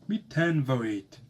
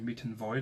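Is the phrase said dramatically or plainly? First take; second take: dramatically; plainly. First: It is said in an exaggerated, overly dramatic way. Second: It is said in a plain, even way. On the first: The speaker calls it wrong. "I don't want to say miten voit. You know, be overly dramatic" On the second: The speaker calls it right. "I just want to say miten voit"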